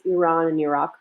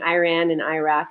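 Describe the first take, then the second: First: The names are said with native-like vowels. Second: The names are said with anglicized vowels. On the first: The speaker calls it right. "It's Iran and Iraq" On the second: The speaker calls it wrong. "I'm not saying Iran and Iraq"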